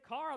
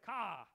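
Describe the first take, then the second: First: It is said in a general American accent. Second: It is said in a New Jersey accent. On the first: "they don't say car" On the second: "Go to New Jersey, ... they say ka"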